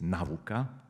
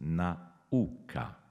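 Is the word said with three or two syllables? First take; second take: two; three. First: The word is said with two syllables. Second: The word is said with three syllables. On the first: The speaker calls it wrong. "To nie jest nauka" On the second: The speaker calls it right. "wzorcowe wyartykułowanie tego słowa powinno zawierać 3 sylaby"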